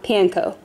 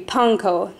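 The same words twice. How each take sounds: First: It is said the usual English way. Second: It is said the Japanese way, with 'pan'. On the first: The speaker calls it wrong. "not panko" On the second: The speaker calls it right. "the word for bread is pronounced pan. So it should be panko"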